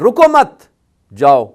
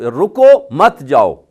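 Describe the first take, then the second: First: The pause comes after the second word. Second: The pause comes after the first word. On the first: Do not stay, but go. "अगर दूसरे लफ्ज पे रुके" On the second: Stay and do not go. "अगर रुको पे आपने वक्फ किया यानी स्टॉप किया"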